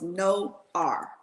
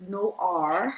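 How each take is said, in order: First: "No R" in two slow, separate syllables; pronounced "No R". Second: "Noir" drawn out slowly in a Texas accent; Southern-accented "Noir", stretched. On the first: Shown as a demonstration. Host correcting her pronunciation, slow two-part "No R". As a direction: sound out "No R" as "no" plus "ar", slowly. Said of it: "but you pronounce it No R". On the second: Real, not acted. Host naming a guest's business, Texas accent on "Noir". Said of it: "me and my Texas accent".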